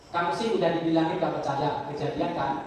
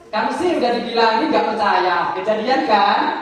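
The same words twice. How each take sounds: First: It is said straight-faced, without a smile. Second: It is said with a smile in the voice. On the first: "kita pakai tanpa senyum" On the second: "Sekarang pakai senyum"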